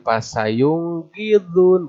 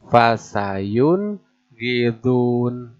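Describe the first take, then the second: First: Pasayung gidun with ng and a higher voice; wrong reading. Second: Fasayun gidun very slowly with a clear n; the right way, drawn out; correct reading. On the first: Teacher demonstrates the wrong ng reading. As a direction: show the mistake. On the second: Teacher gives the correct reading before the wrong one. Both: Shown as a demonstration.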